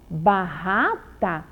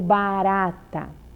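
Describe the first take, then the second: First: The R is pronounced with a strong sound. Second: The R is pronounced with a weak sound. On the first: The speaker calls it wrong. "E o som é forte ou é fraco?" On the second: The speaker calls it right. "O R é sozinho e o som é fraco"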